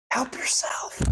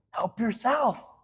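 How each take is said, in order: First: "Help yourself" breathed as a whisper. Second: Said in the usual way. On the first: Shown as a demonstration. Preacher repeating God's offer to the congregation, whispered. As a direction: drop to a hushed, unvoiced whisper. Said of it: "repeated offer, whispered". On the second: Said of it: "repeated offer".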